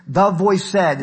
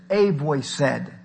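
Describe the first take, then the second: First: "The voice said" with "The" leaned on, a little louder; stress on THE. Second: "A voice said" slow, the "A" drawn out and weighted; stress on A. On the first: Preacher showing the misreading, stress on "The". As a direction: push the word "The" as the wrong reading. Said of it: "it doesn't say it". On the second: Preacher correcting the text to the congregation, slow stress on "A". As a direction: linger on the word "A", slowly. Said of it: "it says". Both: Shown as a demonstration.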